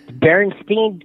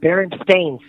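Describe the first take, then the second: First: The last syllable is not pronounced like 'stain'. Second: The last syllable is pronounced like 'stain'. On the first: This is the form the speaker believed was correct. The speaker calls it wrong. "I said Berenstain Bears" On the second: This is the corrected form someone insisted on. The speaker calls it right. "he emphasized and yelled it out at me"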